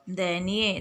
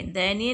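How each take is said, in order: First: दयनीय lower, as "dainiye"; wrong pronunciation. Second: दयनीय as "day-niye", in two parts; correct pronunciation. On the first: Teacher showing pupils the mistake, दयनीय said "dainiye". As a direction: merge the start of दयनीय into "dai". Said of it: "दयनीय नहीं बोलते हैं". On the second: Teacher giving pupils the right word, दयनीय in parts. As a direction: separate "daya" from "niye" in दयनीय. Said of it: "शुद्ध शब्द है". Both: Shown as a demonstration.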